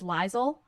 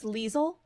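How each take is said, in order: First: The first syllable sounds like 'lie'. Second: The first syllable sounds like 'lee'. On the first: The speaker calls it wrong. "I always read it as Liesel ... because it has the word lie in it" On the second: The speaker calls it right. "I think it's Liesel is the correct way to say it"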